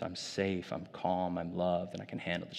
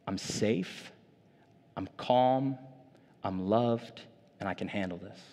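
First: Softer, gentle coaching voice; soft reassurance. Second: Said in the usual way. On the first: Retold or imitated. Katie guiding panicking niece through the truths, soft. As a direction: coax a frightened child calmly. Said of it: "And she's like". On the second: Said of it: "And it just said".

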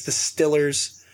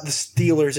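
First: "Stillers" slowed, with a short i; Pittsburgh pronunciation. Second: Said in the usual way. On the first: Shown as a demonstration. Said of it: "when you get into the heart of Pittsburgh". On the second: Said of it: "It's not the Steelers".

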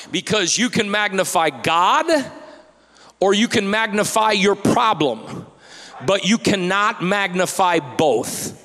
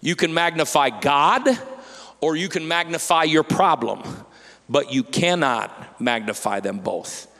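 First: Loud first take of the point; emphatic preaching. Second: Pastor repeating the point gently; calm repeat. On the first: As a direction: punch GOD and PROBLEM, loud and high. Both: Shown as a demonstration. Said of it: "I'll say it again".

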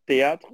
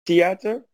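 First: "theater" tried the French way, like "tay-AH-tr"; "theater" with a French-style ending, as a question; second pronunciation attempt. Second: "theater" tried as "tee-AH-ter", questioning rise; "theater" as "tee-AH-ter", higher, asking if it's right; accented pronunciation attempt. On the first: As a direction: say "theater" as a French-sounding guess, rising. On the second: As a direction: say "theater" unsurely with a T for the TH. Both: Shown as a demonstration. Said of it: "words that I might say wrong".

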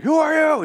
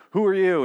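First: High, strained mock shout; hammed-up yell, far above normal pitch; Simon's speech. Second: Raised, louder mock demand; Simon's speech. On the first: Imitating Simon rallying the saviors, hammed-up high shout. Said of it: "That sort of speech". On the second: Imitating Simon challenging the saviors, mildly raised speech. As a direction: call it out, lightly acting the character. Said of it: "Simon starts to, like".

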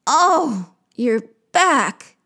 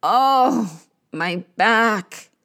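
First: Echoed moan. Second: Drawn-out groan of pain. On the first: Creatures echoing the queen's backache, moaning. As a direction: moan back in sympathy. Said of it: "They moan". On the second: Queen of the underworld in pain, groaning. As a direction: groan it from an aching body. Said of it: "Ereshkigal groans". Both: Acted.

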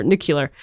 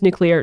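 First: Nuclear said as "NOO-kyuh-lur"; habitual mispronunciation. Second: Said in the usual way. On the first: Shown as a demonstration. Songwriter admitting it's just in the blood, habitual mispronunciation. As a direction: end nuclear on "-kyuh-lur", not "-klee-ur". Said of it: "I pronounced nuclear". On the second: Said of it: "I pronounced nuclear, nuclear".

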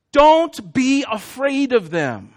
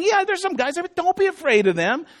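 First: Solemn God reading. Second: Offhand casual God. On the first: Acted. God's command, read slowly. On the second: Pretend.

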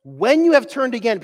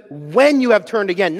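First: "When" again stressed, higher. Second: "When" stressed and falling. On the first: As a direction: repeat "When" with a lift. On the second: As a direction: lean on "When", not if. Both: Shown as a demonstration. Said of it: "not if".

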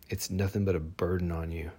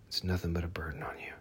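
First: Said in the usual way. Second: Faster, softer whisper of it's nothing but a burden on you; whispered repeat. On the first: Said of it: "spoken then repeated whispered". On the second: Real, not acted. Speaker repeating to listeners baggage is a burden, whispered. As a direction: whisper it again, quick and close. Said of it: "repeat as whisper".

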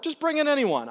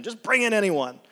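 First: High, loud exasperated "Just bring in anyone"; exasperated host. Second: Loud, firm "Just bring in anyone" read as the host's order; loud command. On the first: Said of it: "She goes". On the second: Host orders servant, scripture read. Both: Acted.

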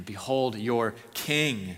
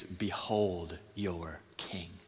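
First: Slow, firmer Behold your king with the weight on king; emphatic reading. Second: Very slow and hushed Behold your king, softer; solemn reading. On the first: Preacher stressing that Pilate presents a king, slow and firm. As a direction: press king home, no longer just the man. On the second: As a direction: lay it down quietly and let it hang. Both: Acted. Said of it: "Not just the man".

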